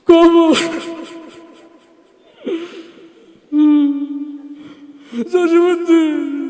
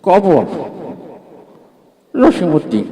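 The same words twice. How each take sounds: First: It is said tearfully, full of emotion. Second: It is mumbled like an old man chewing. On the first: The reciter is overcome with emotion. "একটু emotional টাইপের ... ওর আবৃত্তির ঢং ছিল এরকম।" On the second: The reciter is an elderly man with his mouth full. "মুরব্বী পান খেতে খেতে আসছে, তার আবৃত্তির ঢং ছিল এরকম।"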